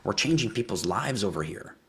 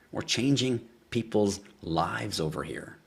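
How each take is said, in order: First: Said in the usual way. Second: Slow and drawn out. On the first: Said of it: "repeats his point". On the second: Real, not acted. Host repeating his boast to viewers, slow and drawn out. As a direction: stretch every word slowly. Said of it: "repeats the line drawn out".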